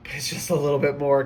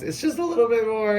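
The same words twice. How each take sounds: First: Said in the usual way. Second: Higher, more urgent repeat; pushing encouragement. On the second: Real, not acted. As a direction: lift it up to push them on.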